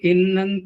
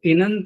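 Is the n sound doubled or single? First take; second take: doubled; single. First: The n sound is doubled and held. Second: The n sound is single and short. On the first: "ये जो बोल रहा हूं मैं इन्नंत और अनंत, तो मैं दो नकारों को बोल रहा हूं" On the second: "इनंत न कह करके"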